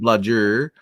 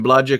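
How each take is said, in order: First: The word ends with an audible R sound. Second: The word ends in an open 'ah' vowel. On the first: The speaker calls it wrong. "instead of" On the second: The speaker calls it right.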